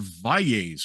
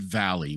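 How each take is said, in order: First: The name is said with Spanish sounds. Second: The name is said with English sounds. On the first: The family embraces its Spanish heritage. The speaker calls it right. "no, we are Valles" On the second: The family had adapted the name to English. The speaker calls it wrong. "We would pronounce it Valley. We were anglicized Valley"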